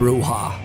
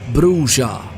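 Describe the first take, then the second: First: The j is a soft Spanish h sound. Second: The j is a hard English j sound. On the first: "because of the Spanish pronunciation" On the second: "It's with a stronger j"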